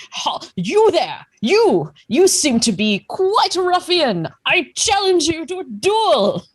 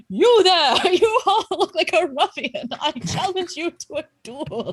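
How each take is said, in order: First: High, loud military challenge; blustering old gentleman. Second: High, wavering ghost challenge; ghostly voice. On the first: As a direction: bark it like a pompous old officer. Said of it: "like a rather older gentleman". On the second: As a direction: wail the challenge like a pompous phantom. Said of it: "you hear a ghostly voice say". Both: Acted.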